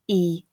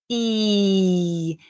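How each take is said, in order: First: The vowel is held at normal length. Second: The vowel is stretched out extra long. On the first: "at a more natural difference in length" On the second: "really exaggerating that difference in length even further than we need to"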